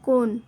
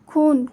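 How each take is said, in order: First: The word starts with a plain unaspirated k sound. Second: The word starts with an aspirated kh sound.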